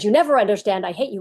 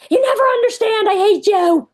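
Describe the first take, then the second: First: Put-on barely raised, half-hearted kid's yell; a hint of a screaming ten-year-old; mild mock scream. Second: Much higher, louder mock scream of "You never understand. I hate you."; hammed-up tantrum yell at mom; imitating a screaming child. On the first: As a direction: quote the kid's scream without really screaming. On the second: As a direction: shriek it like a furious ten-year-old. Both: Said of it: "Ten-year-old screams".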